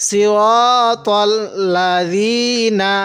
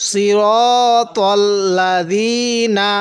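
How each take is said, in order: The two takes are said the same way.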